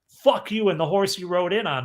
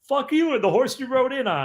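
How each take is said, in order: First: It is said with bitter hatred. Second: It is said with playful affection.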